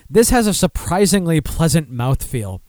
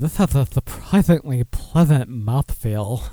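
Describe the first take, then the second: First: It is said in a plain, matter-of-fact tone. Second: It is said in a sultry, suggestive tone.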